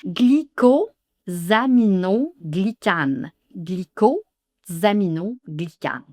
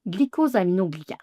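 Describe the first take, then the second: First: "Glycosaminoglycane" slowly, syllable by syllable; slow model; slow pronunciation. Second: "Glycosaminoglycane" rattled off fast; quick fluent take; fast pronunciation. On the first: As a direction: drag out "Glycosaminoglycane". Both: Shown as a demonstration. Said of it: "s'appelle le glycosaminoglycane".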